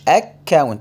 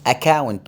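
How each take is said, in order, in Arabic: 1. صوت k في الوسط ممدود ومشدّد. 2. صوت k في الوسط قصير ومفرد. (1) "مش account" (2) "يعني أقول account"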